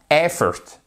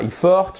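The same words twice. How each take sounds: First: "Effort" stress on the first syllable, "EF-fort"; correct stress. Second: "effort" said "ifor", French-style; the mistaken "effort"; wrong effort. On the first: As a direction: hit the start of "Effort". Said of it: "boum, vous avez l'accent tonique". («Effort» accentué sur la première syllabe) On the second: («effort» mal prononcé, à la française) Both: Shown as a demonstration.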